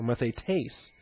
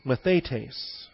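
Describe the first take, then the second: First: "mathetes" with the accent on its last syllable, -tes; final-syllable stress. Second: Said in the usual way. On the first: Shown as a demonstration. Pastor showing alternate Greek pronunciation, "mathetes" stressed on the final syllable. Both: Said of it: "if you accent the final syllable".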